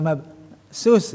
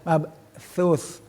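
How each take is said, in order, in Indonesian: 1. Konsonan terakhirnya bunyi s biasa. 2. Konsonan terakhirnya bunyi th. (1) "bukan mabsus ya"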